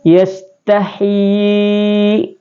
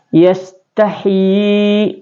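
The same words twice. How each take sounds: First: The long vowel is held for four beats. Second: The long vowel is held for three beats. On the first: "Kemudian empat harakat" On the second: "Kemudian tiga harakat"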